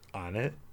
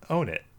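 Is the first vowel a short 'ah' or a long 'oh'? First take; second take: short ah; long oh. First: The first vowel is a short 'ah' sound. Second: The first vowel is a long 'oh' sound. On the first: The speaker calls it right. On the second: The speaker calls it wrong.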